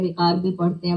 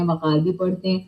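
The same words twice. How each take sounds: First: وقار said with short i, wiqar; first syllable of وقار as wi; wiqar pronunciation. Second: وقار said with short a, waqar; first syllable of وقار as wa; waqar pronunciation. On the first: Teacher showing children one way, wiqar. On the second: Teacher showing children the other way, waqar. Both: Shown as a demonstration. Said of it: "اس لفظ کو دونوں طرح پڑھا جاتا ہے".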